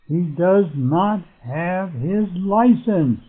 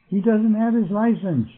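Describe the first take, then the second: First: Does not is said as two separate words. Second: Does not is contracted into one word. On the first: The speaker is giving it emphasis. "same thing down here" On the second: It is the ordinary, unemphatic statement. "instead of saying"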